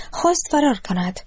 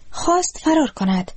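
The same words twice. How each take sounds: First: Said in the usual way. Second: خواست said much higher, with a falling finish; emphasis on خواست. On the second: A narrator's reading. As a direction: lift خواست high, then let it fall in dismay. Narration repeats for emphasis.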